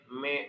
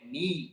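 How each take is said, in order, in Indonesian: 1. Suku katanya berakhir dengan vokal e yang terbuka. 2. Suku katanya berakhir dengan vokal i yang jelas. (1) "Yang dibaca me" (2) "Karena huruf mim kasrah"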